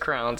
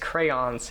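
First: The word is squeezed into one syllable. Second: The word is said with two syllables. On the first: The speaker calls it wrong. "used to say it as crowns" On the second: The speaker calls it right. "It's two syllables"

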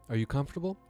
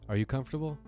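No difference in how they are said.

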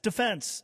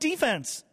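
First: It is said the way hockey uses it. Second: It is said the way other sports use it. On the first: This is how the word is used in hockey. The speaker calls it right. "It's defense in hockey" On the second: This is not how the word is used in hockey. The speaker calls it wrong. "It's not defense"

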